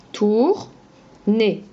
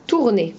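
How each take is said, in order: First: Tourner stretched as tour - ner; slow syllables. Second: Said in the usual way. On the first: Shown as a demonstration. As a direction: say Tourner slowly, splitting the two syllables. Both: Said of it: "Tu peux le répéter?".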